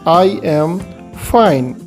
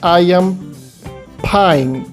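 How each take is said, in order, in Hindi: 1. होंठ अलग रहते हैं, जिससे f की ध्वनि निकलती है। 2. होंठ बंद होते हैं, जिससे aspirated p की ध्वनि निकलती है। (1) "तो सही उच्चारण होगा" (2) "तो वो गलत हो जाएगा"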